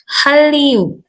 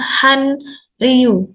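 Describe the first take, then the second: First: The middle consonants are pronounced as a double L. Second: The middle consonants are pronounced as N then R. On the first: The speaker calls it right. "bacanya menjadi L. Jadi ini Hallyu" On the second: The speaker calls it wrong. "bukan Hanryu"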